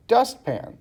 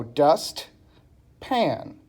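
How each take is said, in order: First: Said in the usual way. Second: "dust, pan" with a long pause between; syllable by syllable. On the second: Shown as a demonstration. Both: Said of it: "I didn't put any dots in between".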